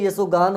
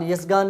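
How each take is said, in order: First: यशोगान as ya-sho-gaan; o sounded. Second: यशगान without an "o"; wrong form. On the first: Teacher correcting students, यशोगान with o. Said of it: "होता है". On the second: Teacher showing the mistake, o-less यशगान. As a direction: say यशगान as yash-gaan. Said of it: "नहीं". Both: Shown as a demonstration.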